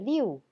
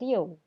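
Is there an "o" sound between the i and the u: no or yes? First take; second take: no; yes. First: It is said as plain l-i-u, no o sound. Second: It is said as l-i-o-u, with an o sound. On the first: The speaker calls it wrong. "bukan dibaca liu" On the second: The speaker calls it right. "dibaca menjadi I O U"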